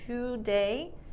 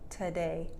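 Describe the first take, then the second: First: The first syllable has a full 'to' vowel. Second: The first syllable is reduced to a short 't'. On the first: "that's like standard English" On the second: "but real English, t"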